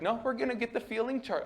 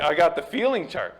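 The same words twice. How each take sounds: First: High, quick, soft mock counselor; put-on high-pitched therapist, hurried; hammed-up counselor. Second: Louder mock counselor announcement; a touch of put-on showmanship; hammed-up counselor. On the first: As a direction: imitate a counselor in an exaggerated high voice. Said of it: "I don't think he talked like that". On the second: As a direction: lightly imitate a counselor proudly presenting. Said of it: "I'm hamming it up a bit".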